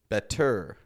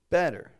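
First: The stress is on the second syllable. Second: The stress is on the first syllable. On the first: The speaker calls it wrong. "to Americans it sounds a little awkward. ... We don't want that" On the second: The speaker calls it right. "Strong in the beginning, kind of weaker on the end"

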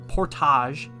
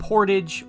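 First: The word is said with French pronunciation. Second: The word is said with English pronunciation.

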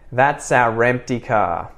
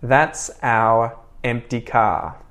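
First: The words run together with a linking R. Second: Each word is said separately, without a linking R. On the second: "first unlinked or unconnected"

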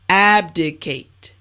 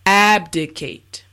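No difference in how they are said.

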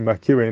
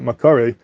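First: The vowel after the k is i. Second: The vowel after the k is a. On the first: The speaker calls it right. "the way to pronounce it would be Makire" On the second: The speaker calls it wrong. "not Makare"

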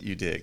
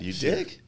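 First: The voice falls at the end like a statement. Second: The voice rises at the end like a question.

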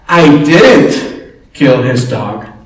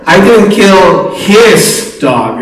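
First: The stress is on the word 'I'. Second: The stress is on the word 'his'. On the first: Someone else did it. "Or someone else said" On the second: The speaker killed someone else's dog. "You look at the dogs in the community and see what's going on"

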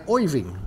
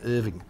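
First: It is said in a New York accent. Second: It is said in an Australian accent.

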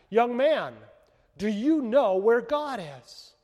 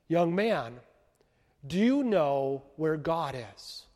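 First: It is said louder and more boldly. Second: It is said at a normal, quiet volume.

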